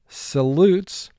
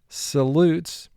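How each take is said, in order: Both takes have the same delivery.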